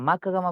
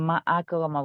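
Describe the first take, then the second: First: The two words run together with no break. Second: The second word starts separately with its own vowel. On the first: The speaker calls it wrong. "মাকরমা বলা যাবে না" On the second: The speaker calls it right. "মা আকরমা বলতে হবে"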